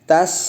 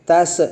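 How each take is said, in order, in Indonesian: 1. Konsonan akhir berhenti dengan bersih, tanpa gema. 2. Konsonan akhir memantul dengan gema. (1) "harusnya tas ya" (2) "huruf sa-nya saja itu bisa mantul. Idza tas tas tas salah"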